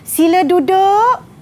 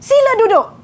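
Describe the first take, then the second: First: It is said in a calm, polite tone. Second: It is said in a firm, stern tone. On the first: A courteous invitation to sit down. "bunyinya seperti sopan" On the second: A firm order to unruly pupils to sit down. "bukan begitu nada saya"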